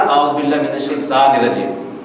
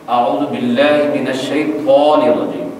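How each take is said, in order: First: الشیطان with a light, thin t like تا. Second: الشیطان with a thick, full-mouthed ط; slow recitation, heavy emphatic t in الشیطان. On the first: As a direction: say the ط of الشیطان as a plain t. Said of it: "میں نے تا کا استعمال کیا". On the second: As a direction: make the ط of الشیطان heavy, darkening its vowel. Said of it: "جب آپ اس کو موٹا پڑھیں گے". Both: Shown as a demonstration.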